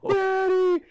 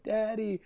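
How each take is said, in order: First: Put-on very high, loud wailing child; a hammed-up toddler wail; bawling toddler. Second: Put-on a bit higher, soft little kid call; lightly voiced toddler, hopeful; soft toddler daddy. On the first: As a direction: wail for daddy like an abandoned toddler. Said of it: "the kid just starts bawling". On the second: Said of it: "They're like".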